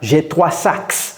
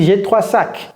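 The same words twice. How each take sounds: First: The final s of sacs is pronounced. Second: The final s of sacs is silent. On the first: The speaker calls it wrong. "On ne peut pas dire" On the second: The speaker calls it right.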